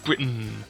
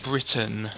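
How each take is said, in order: First: The middle T is dropped, sounding like N. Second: The middle T is clearly pronounced. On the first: The speaker calls it wrong. "not Britain" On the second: The speaker calls it right. "It's a T. Pronounce it"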